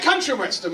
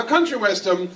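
First: Said in the usual way. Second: Country punched hard on COUN, like COUN-try and western; stress on first syllable. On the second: Shown as a demonstration. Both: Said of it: "with the emphasis on the first syllable".

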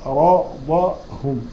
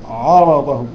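First: عرضهم recited very slowly, light ain, heavy ra and dad; tajweed model of عرضهم; slow recited word. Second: عرضهم with the opening ain made heavy, too full; wrong heavy ain. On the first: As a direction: draw out عرضهم carefully. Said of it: "تبقى تقول عا وليست عا". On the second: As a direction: let the heaviness spill onto the ain of عرضهم. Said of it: "التفخيم يطغى على العين". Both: Shown as a demonstration.

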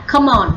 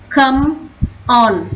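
First: "come on" run together as one word; linked reading. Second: "Come", a clear pause, then "on"; separated words. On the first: Teacher shows pupils how to link it, "come on" joined. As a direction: carry the m of "come" straight into "on". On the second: Teacher breaks down the phrase for pupils, "Come / on" separated. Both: Shown as a demonstration. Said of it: "Đọc nối là come on".

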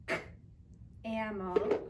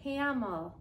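First: Bare "k", a pause, then "amel"; beginning sound separated. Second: Said in the usual way. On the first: Shown as a demonstration. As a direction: split camel after its first consonant, "k" then "amel". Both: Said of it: "Listen, my beginning sound is".

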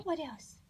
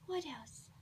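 First: Said in the usual way. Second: Soft unvoiced whisper. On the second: Real, not acted. Repeats question, whispered.

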